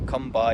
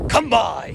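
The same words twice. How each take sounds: First: It is said plainly, like ordinary speech. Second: It is said in a drawn-out, theatrical calling tone.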